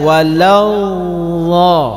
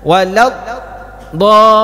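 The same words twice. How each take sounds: First: The sound dips slightly but continues without breaking. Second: The sound breaks off before the final syllable. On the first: The speaker calls it right. "tapi tetap dia berjalan" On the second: The speaker calls it wrong. "Kalau putus salah. Jadi jangan dibaca walau dha"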